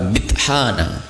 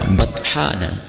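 First: The first syllable has an 'i' vowel. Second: The first syllable has a 'u' vowel. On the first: "Boleh dibaca bithana" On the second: "Boleh dibaca buthana"

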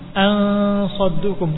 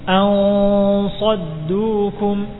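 First: The nasal before the s sounds thin. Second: The nasal before the s sounds thick. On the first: The speaker calls it wrong. "Bukan ansaddukum" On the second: The speaker calls it right.

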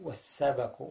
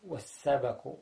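First: The b sound is followed by an a vowel. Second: The same.

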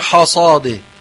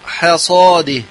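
First: The ha sound is pronounced heavy, emphatic. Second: The ha sound is pronounced light, thin. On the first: The speaker calls it wrong. "لا نقول حصاده، كثير يقرأ حصاده" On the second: The speaker calls it right. "وبين حاء وترققها ثم تفخيم الصاد"

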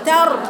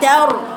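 First: The vowel is plain, without lip rounding. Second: The vowel is colored with lip rounding. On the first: The speaker calls it right. "مفيش إشمام" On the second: The speaker calls it wrong. "انت عملت إشمام في الرأي. قلتي تار"

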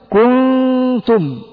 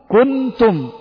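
First: The n is hidden, with nasal sound kept. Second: The n is pronounced clearly and fully. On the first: The speaker calls it right. "فتقول كنتم، كنتم، جمعنا بين الإظهار وبين الإدغام" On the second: The speaker calls it wrong. "لو أني قرأتها بالإظهار ستقول كنتم"

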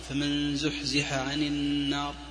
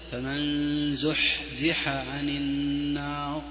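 First: The breathy h sound is light and natural. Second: The breathy h sound is heavily exaggerated. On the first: The speaker calls it right. "سمعتم همسي" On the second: The speaker calls it wrong. "ما في حاجة تشديد ذا"

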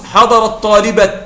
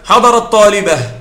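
First: The last word ends in a t sound. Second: The last word ends in an h sound. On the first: "ويجوز حضر الطالبة، لكن هذا قليل" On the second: "عندما تقف عليه تقف بالهاء"

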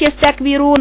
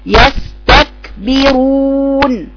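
First: The k is run together with surrounding sounds. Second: The k is stopped sharply before its release. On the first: The speaker calls it wrong. "ما تقرأيش يستكبرون على بعضها كده" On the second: The speaker calls it right. "اقطع صوته اولا واقرأيها كده"

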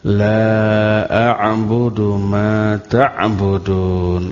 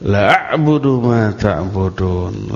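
First: The vowel of the first word is held long. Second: The vowel of the first word is cut short. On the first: I will not worship what you worship. The speaker calls it right. "La-nya dibaca panjang" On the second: I will surely worship what you worship. The speaker calls it wrong. "Kemudian la-nya ini kita baca pendek"

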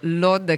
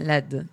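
First: The place name is said the Israeli way. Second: The place name is said the Arabic way. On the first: The speaker calls it wrong. "che è pronuncia israeliana. Malissimo" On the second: The speaker calls it right. "la pronuncia araba è Led"

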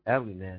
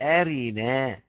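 First: The r carries a brief, reduced vowel. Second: The r carries a full vowel. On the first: The vowel is only partly pronounced. "اختلس زي أبو عمرو كده" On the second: The hamza's vowel is moved onto the consonant. "يا إما الحركة الهمزة للساكن والراء بقت أرينا"

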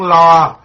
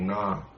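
First: The word begins with an L sound. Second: The word begins with an N sound. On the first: The speaker calls it right. "cái tiếng đó là tiếng lo" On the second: The speaker calls it wrong. "mấy bà không có phát âm cái chữ lo được"

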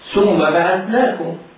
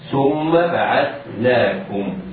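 First: The first consonant is a hissing s sound. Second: The first consonant is a soft th sound. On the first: The speaker calls it wrong. "فيقول خطأ ولحنا فاحشا هكذا" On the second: The speaker calls it right. "تخرج من طرف اللسان مع أطراف الثنايا العليا"

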